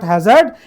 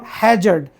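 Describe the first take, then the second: First: The stress is on the second syllable. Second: The stress is on the first syllable. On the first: The speaker calls it wrong. "it's not hazard" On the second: The speaker calls it right. "we need to stress on the first syllable"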